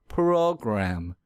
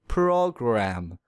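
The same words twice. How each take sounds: First: The R sound is strongly exaggerated. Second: The same.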